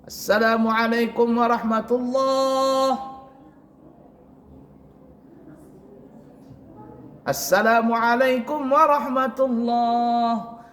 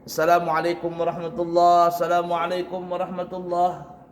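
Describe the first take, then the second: First: A long pause separates the two greetings. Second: No pause separates the two greetings. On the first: "ada yang lama" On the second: "itu tidak ada beri jarak"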